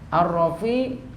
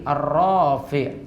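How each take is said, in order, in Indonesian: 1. Vokal setelah R itu pendek. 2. Vokal setelah R itu panjang.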